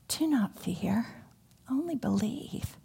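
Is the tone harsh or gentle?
gentle. It is said in a gentle, tender tone.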